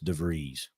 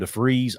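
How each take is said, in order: First: The name is said with a V sound. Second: The name is said with an F sound. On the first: The speaker calls it right. "I'm pretty sure it's DeVries with a V, not a F" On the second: The speaker calls it wrong. "They called him DeFreeze all game long"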